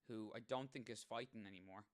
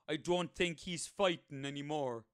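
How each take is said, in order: First: It is said in his normal voice. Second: It is said in a boring drink-driving advert voice.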